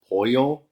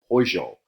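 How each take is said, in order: First: It is said in a general Spanish way. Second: It is said in an Argentine-Uruguayan way. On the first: "rather than saying pollo for chicken" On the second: "especially in Argentina and Uruguay, they say pollo"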